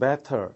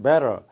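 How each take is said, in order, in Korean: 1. 영국식 발음이고, 또렷한 t 소리입니다. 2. 미국식 발음이고, 부드럽게 굴린 t 소리입니다. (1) "영국식 발음은 better 해서 좀 분명한 발음" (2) "굴리는 발음인 better, 미국식 발음이고요"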